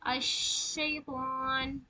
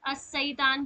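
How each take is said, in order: First: The consonant is a spreading 'sh' sound. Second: The consonant is a plain, narrow 's' sound. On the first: The speaker calls it right. "इसमें सिफत है कि ये फैलने वाली है।" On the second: The speaker calls it wrong. "तो वो गलत हो जाएगा। वो छोटी सीन बन जाएगी।"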